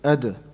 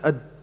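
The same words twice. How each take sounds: First: The final d has a slight echoing bounce. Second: The final d is clipped with no echo. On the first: The speaker calls it right. "It's in the middle" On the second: The speaker calls it wrong. "you can't hear anything"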